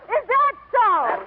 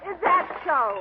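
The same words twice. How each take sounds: First: It is said loudly. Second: It is said at normal volume.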